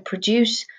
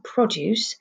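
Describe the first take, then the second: First: The stress falls on the second syllable. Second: The stress falls on the first syllable. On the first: It is a verb: to make or bring something out. "The emphasis depends on if you're using it as a noun or a verb" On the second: It is a noun: fruit and vegetables sold in a shop. "You hear the emphasis is on the first syllable"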